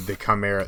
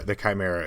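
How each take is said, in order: First: Chimera begun "kam-", short open first vowel; mispronounced chimera. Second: Said in the usual way. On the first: Real, not acted. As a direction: say "chimera" as "ka-MERR-a". Corrects own pronunciation of chimera.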